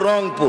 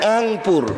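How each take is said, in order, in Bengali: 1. শব্দটি স্পষ্ট র ধ্বনি দিয়ে শুরু হয়। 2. শব্দটি স্বরবর্ণ দিয়ে শুরু হয়, র ধ্বনি নেই। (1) "ওরা বলছে র দিয়ে" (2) "এরা বলছে সরেওয়া দিয়ে"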